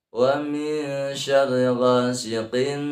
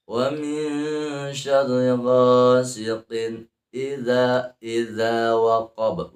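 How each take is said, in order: First: Slow chant, final n of ghasiqin dragged; wrongly held ghasiqin. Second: Slow chant, tanwin unheld before idza; ghasiqin joined to idza. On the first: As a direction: hold the n of ghasiqin too long. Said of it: "Nah, itu salah". (ghasiqin salah, tanwin ditahan) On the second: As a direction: move straight from ghasiqin into idza. (tilawah, tanwin ghasiqin dilangsungkan) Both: Shown as a demonstration.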